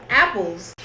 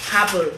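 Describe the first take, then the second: First: Said in the usual way. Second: "apple" with an added h, happle; Jamaican mispronunciation. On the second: Shown as a demonstration. Showing how Jamaicans mispronounce "apple", as happle. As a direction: put an h before "apple". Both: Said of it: "words that Jamaicans mispronounce".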